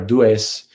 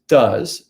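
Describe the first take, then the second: First: The vowel differs from the vowel in 'was'. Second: The vowel matches the vowel in 'was'. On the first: The speaker calls it wrong. "or dues" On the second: The speaker calls it right. "and it's does. It's just like the word was"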